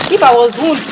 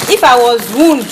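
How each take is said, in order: Both takes have the same delivery.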